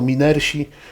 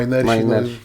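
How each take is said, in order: First: The first vowel is a plain Polish 'ee'. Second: The first vowel is an English 'eye' sound. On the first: The speaker calls it wrong. "No to nie są minersi" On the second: The speaker calls it right. "tylko to są minersi. Wywodzi się to z Katowic, z górnictwa"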